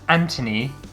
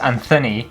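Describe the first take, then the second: First: The middle consonant is a plain t sound. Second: The middle consonant is a th sound. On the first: The speaker calls it wrong. "which is wrong" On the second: The speaker calls it right. "so it's a th"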